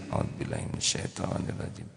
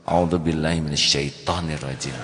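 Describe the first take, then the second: First: It is said softly and calmly. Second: It is said loudly and pointedly.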